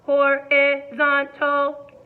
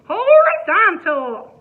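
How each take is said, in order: First: It is said in a robot voice. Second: It is said in a country voice.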